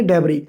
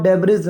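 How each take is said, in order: First: डेब्री said with the s silent, ending on ee; teacher gives the right way, डेब्री with no s at the end; correct pronunciation. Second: डेब्रीज said with the final s sounded; teacher shows the wrong way, डेब्रीज ending in a clear s; wrong pronunciation. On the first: Teacher correcting students' reading, says डेब्री with a silent s. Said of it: "एस का जो sound है वो silent है". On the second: Teacher warning students off the wrong form, pronounces डेब्रीज with s. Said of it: "यहाँ पर इसको डेब्रीज नहीं पढ़ेंगे आप". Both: Shown as a demonstration.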